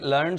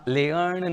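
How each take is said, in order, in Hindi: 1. स्वर सादा 'er' ध्वनि है। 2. स्वर 'eh' ग्लाइड से शुरू होता है। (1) "ये लर्न शब्द है" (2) "लियर्न या लेयर्न नहीं"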